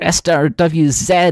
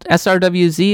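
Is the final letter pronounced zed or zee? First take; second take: zed; zee. First: The last letter is said the northern way, zed. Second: The last letter is said the American way, zee.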